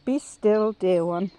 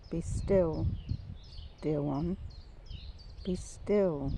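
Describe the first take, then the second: First: Firm, louder "Be still, dear one"; voice of God. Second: Soft, unhurried "be still"; voice of God. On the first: God to the speaker, a clear, louder call. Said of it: "I hear him saying now". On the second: God reassuring broken ones, soft and gentle. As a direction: say it gently, with pauses between phrases. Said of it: "But he says". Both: Retold or imitated.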